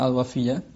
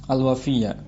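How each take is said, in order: No difference in how they are said.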